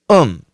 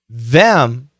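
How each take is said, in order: First: The th sound at the start is dropped. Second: The th sound at the start is pronounced.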